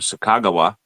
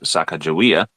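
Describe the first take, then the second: First: The name ends with a short 'wah' sound. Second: The name ends with a 'wee-ah' sound. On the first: The speaker calls it right. "guide named Sakagawa" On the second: The speaker calls it wrong. "Some people may have mispronounced her name"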